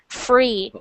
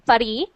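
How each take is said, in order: First: The R is smooth with no tongue contact. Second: The R is a quick tongue tap. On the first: The speaker calls it right. "You want to get it so it's not touching anything" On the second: The speaker calls it wrong. "your tongue is touching the top and then the bottom really quick"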